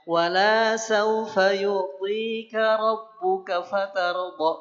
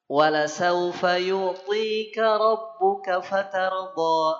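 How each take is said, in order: First: The vowel in 'la' is drawn out long. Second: The vowel in 'la' is short. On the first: God will not give you. The speaker calls it wrong. "Wala la-nya dipanjangin. Itu fatal" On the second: God will surely give you until you are satisfied. The speaker calls it right. "La-nya kan pendek"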